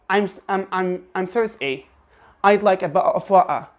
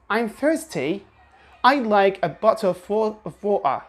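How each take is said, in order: First: Every T in "thirsty", "bottle" and "water" swallowed; "thirs'y", "bo'le", "wa'er" with throat catches; overused glottal T. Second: Only "water" becomes "wa'er"; sparing glottal T. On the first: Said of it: "don't overuse the glottal T". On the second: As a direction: clear T in "thirsty" and "bottle", glottal stop only in "water". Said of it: "use the glottal T only once". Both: Shown as a demonstration.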